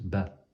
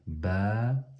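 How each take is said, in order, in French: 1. La voyelle est brève. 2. La voyelle est longue. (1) "c'est pas juste ba" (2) "c'est prolongé"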